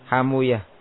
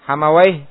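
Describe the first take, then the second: First: The ending sounds like -uyah, with a u vowel. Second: The ending sounds like -awayh, with an open vowel. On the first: "bisukunil waw wa dhammi ma qablaha" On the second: "Hamawai ya, dibaca apa?"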